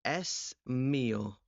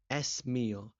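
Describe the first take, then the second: First: Slow example. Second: Said in the usual way. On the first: Shown as a demonstration. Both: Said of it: "El móvil".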